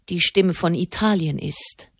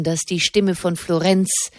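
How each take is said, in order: First: "Italien" stressed, falling to a final close. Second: "Stimme" stressed with a rising tune, left hanging. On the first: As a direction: land firmly on "Italien". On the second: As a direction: lift "Stimme" and hold the phrase open. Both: A narrator's reading. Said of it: "Seine Stimme klang merkwürdig hoch".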